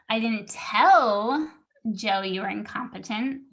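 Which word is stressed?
tell. The word tell is stressed. It was communicated another way, not spoken. "I emailed him, but I didn't tell him"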